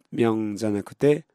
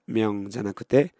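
The two takes are said the same way.

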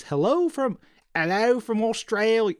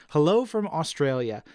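First: High, hammed-up Aussie "hello from"; a cheeky fake Australian greeting; mock Australian accent. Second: Said in the usual way. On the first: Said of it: "Sorry, Evan, I won't do that again". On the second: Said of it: "I won't do that again".

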